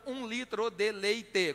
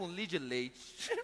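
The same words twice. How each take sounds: First: It is said fully, with six syllables. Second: It is reduced Mineiro-style to three syllables.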